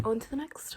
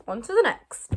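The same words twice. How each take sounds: First: Said in the usual way. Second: Belted out loud; loud announcement. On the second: Shown as a demonstration. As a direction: call it out loud. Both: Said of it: "repeated announcement".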